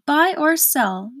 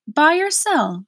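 First: Slow, higher, spelled-out impatience; impatient, slower repeat. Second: Quicker, higher impatient prompt; impatient repeat. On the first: Gateman repeating it once more to Milo, slow impatience. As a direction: stretch each word for someone slow to follow. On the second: Gateman repeating his question to Milo, impatient prompt. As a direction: press for an answer, pitched up. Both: A narrator's reading. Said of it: "repeated the gateman impatiently".

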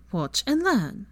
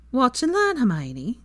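First: Settled repeat. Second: Playful boast. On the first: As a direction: close it off calmly, falling on learn. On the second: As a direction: tease her, lilting up on learn. Teasing boast to Hermione. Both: Acted.

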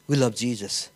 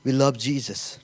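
No difference in how they are said.

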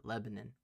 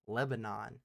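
First: "Lebanon" ending in a swallowed nun; local Lebanon. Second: "Lebanon" with a clear NON at the end; country-style Lebanon. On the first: Podcaster showing the local town name, reduced pronunciation. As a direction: say "Lebanon" as LEB-uh-nun, reduced last vowel. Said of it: "we call it". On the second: Podcaster giving the spelled form to co-host, full pronunciation. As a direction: say "Lebanon" as LEB-uh-non, full last vowel. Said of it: "spell, we call it Lebanon". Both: Shown as a demonstration.

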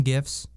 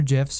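First: Gifs with a hard g, as in gift. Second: Gifs with a soft g, like jifs. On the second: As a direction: say gifs starting with a j sound. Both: Shown as a demonstration. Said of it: "If you pronounce it gifs".

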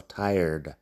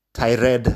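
First: Tired with a soft English R, one syllable; correct English pronunciation. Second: Tired said as Spanish tai-red with a tapped R; mock the Spanish reading of tired; wrong Spanish pronunciation. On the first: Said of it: "La R en medio es suave". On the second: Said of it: "que no es tired ni nada de eso". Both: Shown as a demonstration.

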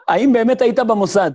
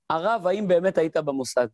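First: The question again, much louder and punched; louder repeat. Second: Said in the usual way. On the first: Retold or imitated. Teacher repeats the cheeky question for laughs, loud. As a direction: belt out the question with amused emphasis. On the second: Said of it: "אז הוא אומר".

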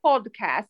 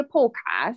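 First: "Podcast" with the D clearly said; sounded D. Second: "podcast" with the D swallowed; dropped D. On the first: Shown as a demonstration. Co-host correcting how host says it, "Podcast" with a clear D. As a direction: say "Podcast" with a distinct D in the middle. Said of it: "when you say the D". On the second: Retold or imitated. Co-host mimicking the host, "podcast" with no audible D. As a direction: imitate "podcast" as if it had no D. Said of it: "I can only hear you say podcast".

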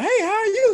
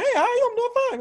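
First: Greeting way up high, falsetto; high-pitched greeting. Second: Falsetto reply, very high; high-pitched greeting. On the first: Mimicking a stranger's high greeting, falsetto. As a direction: chirp it high like a copied greeting. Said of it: "high pitched voice". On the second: Answering someone's squeaky hello, in falsetto. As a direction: copy the high voice back brightly. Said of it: "follow the high pitched voice". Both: Retold or imitated.

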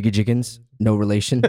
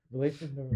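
First: Matter-of-fact name reading at full voice; announcer reading names. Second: Very soft, barely audible aside; hushed advice under the breath; whispered prompt. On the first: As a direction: announce the name, then tack on the correction. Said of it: "at the advice of someone else". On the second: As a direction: whisper the correction to the announcer. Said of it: "where it's almost inaudible". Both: Acted.

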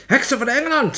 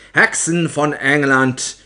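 First: Very high, loud shriek; shrieking witch. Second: Loud, slow proclamation; opperheks shouting. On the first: Opperheks addressing the witches of England, shrieking. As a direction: screech it sharply at the crowd. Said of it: "gilde ze". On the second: Opperheks addressing the witches of England, shouting. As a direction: call the hall to attention with a drawn-out shout. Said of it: "schreeuwde de opperheks". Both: A narrator's reading.

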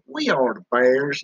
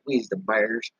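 First: Said in the usual way. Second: "we's" said lower and softer, drawn down; folksy we's. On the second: Shown as a demonstration. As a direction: say "we's" in place of "we are", low and soft. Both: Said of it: "Yes, right".

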